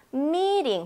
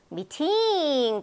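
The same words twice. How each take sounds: First: 미팅 as a long MEE with a light tapped "ring"; stress on first syllable. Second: 미팅 wrongly stressed, with a long drawn-out 팅; stress on second syllable. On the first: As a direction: lean on the front of 미팅, soften the T. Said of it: "앞부분이 강하단 말이에요". (미팅의 앞을 강하게, 뒤는 '링'으로 약하게) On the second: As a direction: stretch the end of 미팅 with a hard T. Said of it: "어디를 제가 높고 크고 길게 발음했죠". (미팅의 '팅'을 길게 강조해서) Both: Shown as a demonstration.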